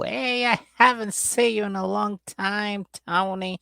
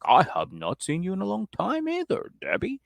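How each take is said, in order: First: High, drawn-out mock greeting; Debbie's gushing greeting. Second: High mock-formal reply with a rising stretch; Tony. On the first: Debbie greeting Tony at their reunion, mock gushing. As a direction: greet them in a high, stretched-out put-on voice. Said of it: "they do the whole". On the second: Tony answering Debbie's greeting, hammed-up high voice. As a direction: echo the greeting back in a put-on high voice. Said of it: "And Tony's like".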